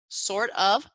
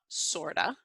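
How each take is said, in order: First: The word 'of' is said in full. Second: The word 'of' is reduced to a schwa.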